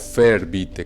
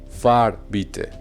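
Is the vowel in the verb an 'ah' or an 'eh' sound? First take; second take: eh; ah. First: The verb's vowel is an umlaut 'eh' sound. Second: The verb's vowel is a plain 'ah' sound. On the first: The speaker calls it wrong. "No, no fair bitte, que es lo que uno pensaría" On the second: The speaker calls it right. "no se le ponen esos puntos a la A en este caso"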